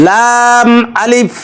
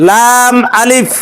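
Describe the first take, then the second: The two takes are said the same way.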